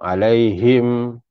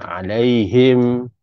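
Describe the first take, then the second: The two takes are said the same way.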